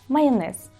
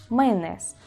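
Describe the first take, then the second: No difference in how they are said.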